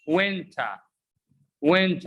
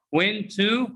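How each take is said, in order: First: "Went" as "wenta", one word; short "tuh" ending on "Went"; reduced pronunciation. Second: "Went to" with full "too"; unreduced citation form. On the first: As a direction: model the blended "wenta" for repeating. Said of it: "Repeat after me". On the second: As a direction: model "Went to" as two words. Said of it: "is pronounced what?". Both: Shown as a demonstration.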